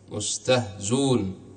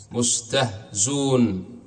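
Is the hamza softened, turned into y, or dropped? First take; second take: dropped; dropped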